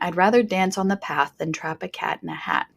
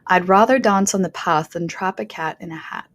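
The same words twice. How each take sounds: First: It is said in a general American accent. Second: It is said in a modern British accent. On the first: "That was my American self saying that" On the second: "the British modern R P speakers are going to say trap and path. Very different, right?"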